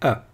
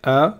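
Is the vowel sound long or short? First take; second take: short; long. First: The vowel is kept short. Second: The vowel is held long. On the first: "tout simplement" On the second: "un A prolongé"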